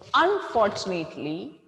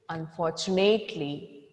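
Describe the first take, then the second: First: The word is said in a plain, unlowered voice. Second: The word is said in a lowered, sad voice. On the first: The speaker calls it wrong. "it is not unfortunately" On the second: The speaker calls it right. "bring your voice down to express that sadness"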